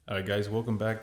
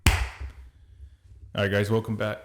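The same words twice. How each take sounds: First: The greeting is said at a quieter volume. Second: The greeting is said very loudly. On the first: The speaker calls it right. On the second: The speaker calls it wrong.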